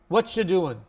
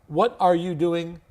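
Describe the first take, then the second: First: It is quick, with the words run together. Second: Every word is said fully and distinctly.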